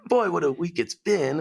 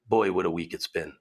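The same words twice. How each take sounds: First: It is said with clear rising and falling pitch. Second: It is said flat, without rising or falling pitch. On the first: The voice fits the context of the sentence. The speaker calls it right. "that's got to be like either" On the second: The voice ignores the context of the sentence. The speaker calls it wrong. "it couldn't do inflection up or down"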